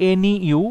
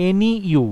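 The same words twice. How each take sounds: The two takes are said the same way.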